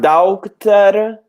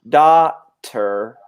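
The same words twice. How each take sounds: First: The written G and H are sounded out. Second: The written G and H are silent. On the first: The speaker calls it wrong. "not daughter" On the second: The speaker calls it right. "but daughter"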